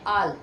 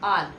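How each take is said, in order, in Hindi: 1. यह स्वर खुला, बिना गोलाई वाला 'ah' ध्वनि है। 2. यह स्वर खुला, बिना गोलाई वाला 'ah' ध्वनि है।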